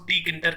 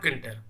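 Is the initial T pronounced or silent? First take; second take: pronounced; silent. First: The word begins with a separate T sound. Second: The word begins directly with a K sound. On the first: The speaker calls it wrong. "कई लोग इसको टी किंटर कहते हैं" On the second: The speaker calls it right. "टी silent रहता है मेरे हिसाब से"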